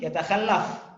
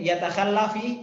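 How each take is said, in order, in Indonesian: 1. Kata itu berakhir pada konsonan mati. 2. Kata itu berakhir dengan vokal i pendek. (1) "Seharusnya di situ adalah yatakhallaf" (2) "Karena bertemu dua sukun"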